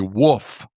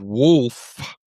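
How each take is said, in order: First: The word is said without an L sound. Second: The word is said with an L sound. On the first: "they leave the L out and they say woof" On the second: "instead of wolf"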